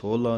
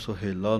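First: It is pronounced sohla, with no middle i vowel. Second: It is pronounced suhela, with u and e vowels. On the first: "ਸੋਹਲਾ ਨਹੀਂ ਕਹਿਣਾ" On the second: "ਇਹਨੂੰ ਸੁਹੇਲਾ ਨਹੀਂ ਬੋਲਣਾ"

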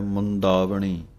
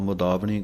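First: The first vowel is said with nasal sound. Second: The first vowel is said without nasal sound. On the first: The speaker calls it right. "ਟਿੱਪੀ ਦੀ ਆਵਾਜ਼ ਦੇ ਕੇ ਬੋਲਣਾ ਹੈ" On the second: The speaker calls it wrong. "ਮੁੰਦਾਵਣੀ ਕਹਿ ਜਾਂਦੇ ਹਾਂ, ਟਿੱਪੀ ਨਹੀਂ ਬੋਲਦੇ"

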